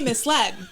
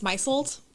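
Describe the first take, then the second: First: It sounds like 'mis-led', with two clear syllables. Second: It sounds like 'my-zld', rhyming with 'Meisel'. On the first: This is how the word is said aloud. The speaker calls it right. "but I say misled" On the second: This is how the word sounds when read silently. The speaker calls it wrong. "when I read it in a book, I always think it's misled"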